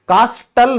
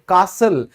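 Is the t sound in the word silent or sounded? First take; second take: sounded; silent. First: The t sound is pronounced. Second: The t sound is silent. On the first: The speaker calls it wrong. "कास्टल नहीं बोलेंगे" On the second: The speaker calls it right. "कासल। कास्टल नहीं बोलेंगे"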